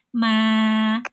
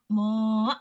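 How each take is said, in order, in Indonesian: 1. Vokalnya tipis, dengan lidah dihamparkan datar. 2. Vokalnya tebal, dengan pangkal lidah terangkat. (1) "tapi ma" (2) "tidak dibaca minas samo, mo, gitu, nggak tebal"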